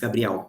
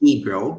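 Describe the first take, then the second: First: It is said Portuguese-style, with a stronger 'ga'. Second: It is said with an American English accent. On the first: The speaker calls it right. "but it's Gabriel" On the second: The speaker calls it wrong. "American people say Gabriel"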